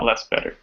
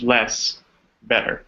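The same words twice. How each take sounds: First: Less and better run together without a pause. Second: There is a pause between less and better. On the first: The speaker calls it wrong. "Not less better" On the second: The speaker calls it right. "Gotta get the right pause in there"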